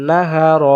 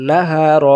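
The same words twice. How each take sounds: The two takes are said the same way.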